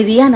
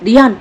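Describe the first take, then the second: First: Said in the usual way. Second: Put-on enraged older brother shouting rayon at his younger brother; furious shout. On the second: A narrator's reading. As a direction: roar the name to cut him off. భయంకరమైన ఆవేశంతో ఊగిపోతూ.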